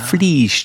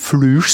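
First: The vowel is an unrounded 'ee' sound. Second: The vowel is a rounded 'ü' sound. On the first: The speaker calls it right. "das kommt vom Fließen" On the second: The speaker calls it wrong. "Man darf nicht Flüsch sagen, nicht so wie Plüsch"

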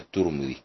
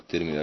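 First: The vowel after the t is a u. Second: The vowel after the t is not a u. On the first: The speaker calls it right. "الصحيح أنها الترمذي بضم التاء" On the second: The speaker calls it wrong. "هكذا يلفظوها"

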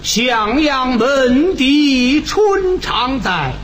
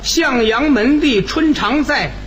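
First: Each syllable is drawn out with nasal resonance. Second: It is spoken plainly, like ordinary talk. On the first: "你上口用韵白 ... 你看这个鼻腔共鸣就用上了" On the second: "你看这么说起来，好像共鸣用处不大"

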